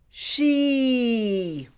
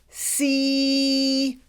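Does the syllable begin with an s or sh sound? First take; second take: sh; s. First: The syllable begins with a hushing sh sound. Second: The syllable begins with a hissing s sound. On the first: "So this syllable is pronounced she" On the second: "You can also pronounce the C as an S sound"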